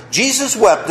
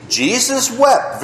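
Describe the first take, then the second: First: Said in the usual way. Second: Jesus wept drawn out slowly, each word weighted; slow recitation. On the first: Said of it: "Very good". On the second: Shown as a demonstration. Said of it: "Who knows?".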